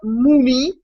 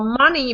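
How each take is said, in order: First: It is said in an imitated Liverpool accent. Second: It is said in a plain standard accent. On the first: "she said like ... but mumi" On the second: "not uh, money"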